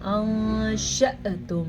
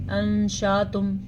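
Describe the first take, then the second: First: أَنْشَأْتُمْ with a light glottal catch on the hamza. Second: أَنْشَأْتُمْ with no glottal catch on the hamza; wrong recitation. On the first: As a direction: break slightly at the ء in أَنْشَأْتُمْ. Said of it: "پڑھنا کیسے ہے". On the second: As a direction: glide over the hamza in أَنْشَأْتُمْ like an alif. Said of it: "اگر کوئی ایسا پڑھتا ہے تو غلط". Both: Shown as a demonstration.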